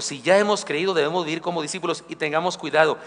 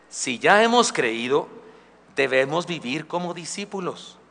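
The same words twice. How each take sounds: First: Said in the usual way. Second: Slow stress on hemos, rising then falling; slow, deliberate. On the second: Shown as a demonstration. Pastor stresses discipleship to youth, slow and deliberate. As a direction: lay out "Si ya hemos creído" slowly.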